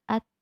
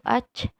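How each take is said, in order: First: The final t has a slight hiss. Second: The final t has a strong hiss. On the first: The speaker calls it right. "dia at sedikit" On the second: The speaker calls it wrong. "tidak terlalu ac"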